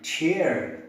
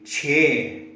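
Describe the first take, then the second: First: Chair in an American accent, with the r sounded; American chair ending in a clear r. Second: Chair in a British accent, no r sound; British chair ending on an open e. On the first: Teacher showing American chair with a sounded r. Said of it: "but in American English it is". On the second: Teacher showing British chair with a silent r. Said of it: "British English it should be chair". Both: Shown as a demonstration.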